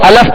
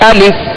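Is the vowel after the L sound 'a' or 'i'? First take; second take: a; i. First: The vowel after the L is 'a'. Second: The vowel after the L is 'i'. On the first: The speaker calls it wrong. "अलफ पढ़ते हैं, जबकि ये गलत तरीका है" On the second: The speaker calls it right. "दुरुस्त तरीका ये है अलिफ ... लाम सा जेर लिफ"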